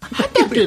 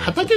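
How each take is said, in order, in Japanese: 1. 音楽家の名前のアクセントです。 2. 「畑」という単語のアクセントです。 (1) "畑だとシャランキューになっちゃうから。" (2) "畑だったらわかる。"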